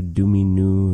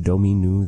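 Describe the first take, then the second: First: Domino said "doo-mee-noo"; first vowel of Domino as a short "oo"; Arthur's pronunciation. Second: Domino said "doh-mee-noo"; first vowel of Domino as a long "oh"; Jimena's pronunciation. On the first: Teacher showing learners how Arthur says it, Domino as "doo-mee-noo". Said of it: "the way that Arthur is saying it". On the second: Teacher showing learners how Jimena says it, Domino as "doh-mee-noo". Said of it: "Jimena here saying Domino". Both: Shown as a demonstration.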